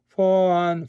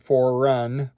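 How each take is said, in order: First: The vowels run together with no R or break. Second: An R sound links the two words together. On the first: "it sounds dumb if you say song for un" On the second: "or for run. I don't want that"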